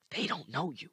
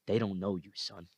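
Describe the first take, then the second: First: "They don't know you" said much higher, pressed home; emphatic repeat. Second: Said in the usual way. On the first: Acted. Repeating the catchphrase to viewers with a higher push. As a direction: hit it harder the second time.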